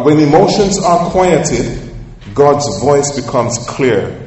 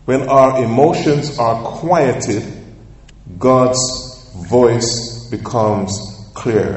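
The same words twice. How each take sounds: First: Slow and emphatic, high and loud on "emotions", spoken for note-taking; slow dictation. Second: Very slow, with long pauses before "God's" and "voice"; word-by-word dictation. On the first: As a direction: lean on "emotions", pitched up, so they can write it. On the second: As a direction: break it into pieces with pauses, dictating. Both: Shown as a demonstration. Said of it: "Write this statement down".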